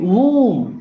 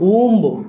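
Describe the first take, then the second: First: The word ends without a b sound. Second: The word ends with a b sound. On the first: The speaker calls it right. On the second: The speaker calls it wrong.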